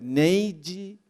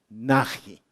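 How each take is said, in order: First: The name is pronounced in a non-Spanish way. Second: The name is pronounced in the Spanish way. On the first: "Puede ser Neigi" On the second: "en español se leería"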